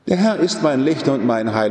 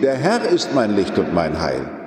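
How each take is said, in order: First: The stress falls on Licht, not on Herr. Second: The stress falls on Herr, not on Licht. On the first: The light is what matters. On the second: The light comes from God.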